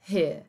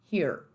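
First: Here as "heah", no R; British dropped R. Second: Here with a full final R; American R. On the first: Teacher isolating the word here, British pronunciation. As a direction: ignore the final letters of here, British-style. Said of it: "como se você simplesmente ignorasse essas duas letras". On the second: Teacher isolating the word here, American R. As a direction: curl the R closing here. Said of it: "Nesse here, termina com R E". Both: Shown as a demonstration.

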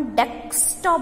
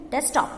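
First: Said in the usual way. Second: डेस्कटॉप said quickly with the k dropped, like destop. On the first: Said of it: "अपन डेस्कटॉप बोलते हैं". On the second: Shown as a demonstration. Teacher demonstrating desktop without the k sound. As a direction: skip the k: "डेस्कटॉप" as des-top. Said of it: "illusion के तौर पर करेंगे".

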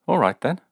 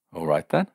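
First: Stung, high and sharp. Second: Said in the usual way. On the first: A narrator's reading. Man stung by her doubt, answering high and sharp. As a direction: snap it back, wounded pride. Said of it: "he said, stung to the quick". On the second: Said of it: "stung to the quick".

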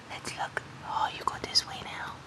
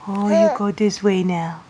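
First: Soft unvoiced whisper. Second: Said in the usual way. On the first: Real, not acted. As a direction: breathe the words out softly. Whispering to baby.

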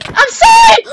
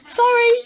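First: Very high, shouted mock apology; exaggerated sorry. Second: Said in the usual way. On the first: Told to mean the apology, player shouts it. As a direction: yell it as if you mean it. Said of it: "Say like you mean it". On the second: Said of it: "Say sorry, say sorry".

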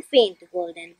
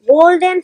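First: Faint, golden dropped low and much softer. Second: Golden punched louder, bright and full. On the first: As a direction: fade right down on faint, golden. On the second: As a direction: swell up on Golden like a glow. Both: Shown as a demonstration. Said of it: "and so on".

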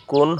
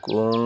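First: Said in the usual way. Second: কুং ending in a held nasal ng; গুন্না nasal ending. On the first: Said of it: "কুন হবে না". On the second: Shown as a demonstration. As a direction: hum the ng of কুং through the nose. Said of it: "অন্য সুকার কুং". (কুং নাকে টেনে গুন্না করে)

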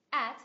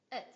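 First: "At" stressed with an open a; strong form. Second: "it" as weak, short "uht"; reduced form. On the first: Teacher contrasting forms for learners, strong "At". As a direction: say "At" in full. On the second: Teacher showing a reduced function word, weak "it". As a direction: say "it" with a tiny schwa. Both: Shown as a demonstration. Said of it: "phần reduced trong một function word".

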